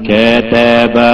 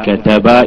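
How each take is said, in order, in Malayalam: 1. ചെറിയ സ്വരങ്ങൾ വളരെ നീട്ടിപ്പറയുന്നു. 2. ചെറിയ സ്വരങ്ങൾ ചെറുതായിത്തന്നെ നിലനിർത്തുന്നു.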